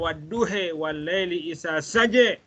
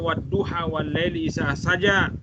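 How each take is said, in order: First: The first word ends with a fronted 'e' vowel. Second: The first word ends with an open 'a' vowel. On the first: "tapi dia baca" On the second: "Dia tak baca"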